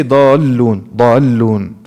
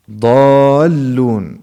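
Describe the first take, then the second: First: "ضالون" loud, with the "daa" cut short before the double l; incorrect short vowel. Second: "ضالون" loud and slow, "daa" stretched into a double l; prepared long vowel. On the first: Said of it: "It, it doesn't sound correct". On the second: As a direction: draw out "daa" before pressing the l in "ضالون". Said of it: "You need to prepare this". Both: Shown as a demonstration.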